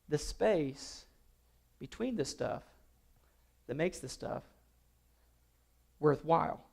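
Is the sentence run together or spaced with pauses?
spaced. The words are spaced out with pauses. The speaker calls it right. "let's try it again"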